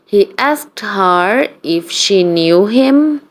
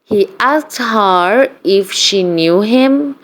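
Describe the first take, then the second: No difference in how they are said.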